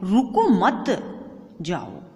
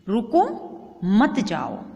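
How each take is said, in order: First: There is a pause after the second word. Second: There is a pause after the first word. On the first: The listener is told not to stay but to leave. "रुको मत के बाद है ना अल्प विराम" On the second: The listener is asked to stay and not leave. "रुको, फिर हम रुके ना, क्योंकि बीच में गैप है"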